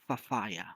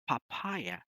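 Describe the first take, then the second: First: The word begins with an f sound. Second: The word begins with a p sound. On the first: The speaker calls it wrong. "We make the F sound like P and P sound like F" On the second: The speaker calls it right. "Instead, we have to say"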